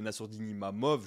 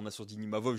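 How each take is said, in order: First: The surname has an m sound after 'Ima'. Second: The surname has a v sound after 'Ima'. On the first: The speaker calls it wrong. "je disais Nassourdine Imamov" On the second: The speaker calls it right. "j'avais du mal à dire Nassourdine Imavov"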